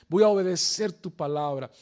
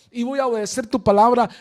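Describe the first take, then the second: First: Said in the usual way. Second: "palabra" hit loud in a quick, louder rush; emphatic repeat. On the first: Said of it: "repeated phrase, first take". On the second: Shown as a demonstration. Preacher repeating Pedro's vow, louder and faster. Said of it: "repeated louder, faster take".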